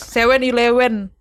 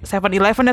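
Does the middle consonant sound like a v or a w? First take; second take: w; v. First: The middle consonant sounds like a w. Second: The middle consonant sounds like a v. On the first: This is how people there say it. "kalau di sono tuh V jadi W" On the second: The listener does not understand it. "Terus kayak gak ngerti dong"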